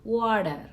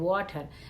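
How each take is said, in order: First: The middle consonant is a soft d sound. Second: The middle consonant is a clear t sound. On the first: "టీని డీగానే ప్రొనౌన్సియేట్ చేస్తారనమాట" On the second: "ప్రతి లెటర్ ని మనం pronunciation ఒత్తి ఒత్తి పలుకుతాం"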